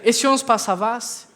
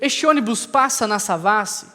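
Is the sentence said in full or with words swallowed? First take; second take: swallowed; full. First: Some words are swallowed and dropped. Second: Every word is said in full. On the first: The speaker calls it wrong. "comi as palavras" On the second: The speaker calls it right. "ao invés de dizer"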